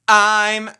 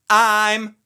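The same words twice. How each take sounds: First: It starts with a sharp catch in the throat. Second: The same.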